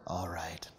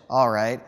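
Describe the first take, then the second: First: Breathy whisper, much softer; whispering dinosaurs. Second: Said in the usual way. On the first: Acted. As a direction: whisper it like a lurking chorus. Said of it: "a chorus of whispering dinosaurs". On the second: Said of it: "Cowboy Fish".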